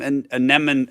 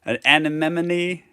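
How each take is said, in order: First: "anemone" stumbled over, last syllable dropped; tentative pronunciation. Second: "anemone" slowly with all syllables, ending in -nee; corrected pronunciation. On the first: Reader trying the Empress's name, "anemone" cut short. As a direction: sound out "anemone" hesitantly as "a-NEM-un". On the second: Reader working out the Empress's name, "anemone" slow and complete. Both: Real, not acted. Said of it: "oh, it's like anemone".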